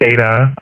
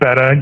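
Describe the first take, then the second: First: The first vowel sounds like 'bay'. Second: The first vowel sounds like 'bet'. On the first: "some people say beta" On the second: "I think the pronunciation is betta"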